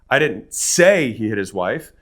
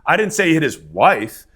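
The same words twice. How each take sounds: First: The stress is on the word 'say'. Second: The stress is on the word 'wife'.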